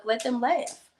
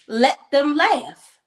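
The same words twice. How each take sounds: First: Said in the usual way. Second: "Let them laugh" drawn out slow and louder, each word hit; slow emphatic repeat. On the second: Retold or imitated. Husband telling his jealous wife to let them laugh, slow and emphatic. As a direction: lean on "Let them laugh" slowly and firmly.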